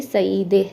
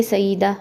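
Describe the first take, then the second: First: सईदे ending in "e"; Persian pronunciation. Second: सईदा ending in a long "aa"; Urdu pronunciation. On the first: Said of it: "मगर वो इसको पढ़ेंगे". (सईदे, आख़िर में "ए") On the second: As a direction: say सईदा with final -daa. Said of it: "Urdu में पढ़ेंगे". (सईदा, आख़िर में "आ") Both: Shown as a demonstration.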